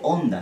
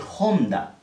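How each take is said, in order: First: The word begins directly with the vowel, h silent. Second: The word begins with a raspy j-like sound. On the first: The speaker calls it wrong. "no se dice Honda" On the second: The speaker calls it right. "se dice Honda, como si tuviese una J"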